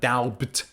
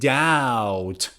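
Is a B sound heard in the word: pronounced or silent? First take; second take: pronounced; silent. First: The word has a B sound. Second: The word has no B sound. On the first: The speaker calls it wrong. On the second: The speaker calls it right. "B is silent"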